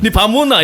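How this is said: It is said in a Gyeongsang dialect. This is the real regional way of saying it. "이게 어, 사투리거든"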